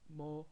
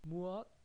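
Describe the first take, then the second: First: The word is shortened into one quick syllable. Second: The word is said fully in two syllables.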